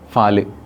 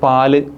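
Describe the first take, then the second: First: The word begins with an f sound. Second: The word begins with a plain p sound. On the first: This is the local dialect form. "പ എന്ന അക്ഷരത്തിന് പകരം ഫ use ചെയ്യും" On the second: This is the standard form of the word. "പ എന്ന അക്ഷരത്തിന്"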